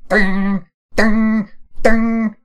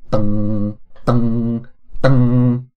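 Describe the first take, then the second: First: High, loud vibrating "ding"; piercing string plucks. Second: Loud, monotone "dung" string imitation; flat, bland plucks. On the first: Streamer trying vibrating and piercing harp notes, high loud dings. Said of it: "vibrating and piercing". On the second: Streamer imagining a plucked harp arrangement, flat monotone dungs. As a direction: sound three identical bland string plucks. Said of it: "Very flat, very bland". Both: Shown as a demonstration.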